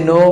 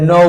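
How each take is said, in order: First: No with a pure o; unglided vowel in no; wrong pronunciation. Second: No gliding to u, "nou"; drawn diphthong in no; correct pronunciation. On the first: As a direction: say no as flat "noh", no glide. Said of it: "ভুল উচ্চারণ বলছি". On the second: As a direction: say no with a rounded ou. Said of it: "সঠিক উচ্চারণ হবে". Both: Shown as a demonstration.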